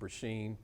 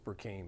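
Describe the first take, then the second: First: The name is said with a middle 'sh' sound. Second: The name is said with a 'k' before 'een'. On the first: This is how other people mangle the name. The speaker calls it wrong. "They say" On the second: This is the name as it should be said. The speaker calls it right. "It's Burkeen"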